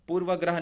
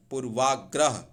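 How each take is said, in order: First: पूर्वग्रह with short A after व; wrong form पूर्वग्रह. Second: पूर्वाग्रह with long AA after व; correct form पूर्वाग्रह. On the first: Teacher rejects a common error, mistaken form. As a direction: say पूर्वग्रह, short middle vowel. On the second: Teacher corrects पूर्वग्रह, long-vowel form. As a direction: stretch the वा in पूर्वाग्रह. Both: Shown as a demonstration. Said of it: "पूर्वग्रह नहीं".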